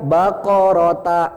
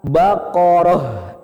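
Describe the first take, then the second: First: The word ends with a t and a vowel. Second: The word ends with an h sound. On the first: The speaker calls it wrong. "Jangan dibaca bakorota, enggak" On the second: The speaker calls it right. "Ini dirubah jadi huruf H"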